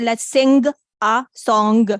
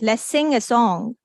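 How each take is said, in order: First: The g is released as a clear stop. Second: The g is held back in the nose. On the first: The speaker calls it wrong. "We don't say let's sing a song" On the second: The speaker calls it right. "For example, sing"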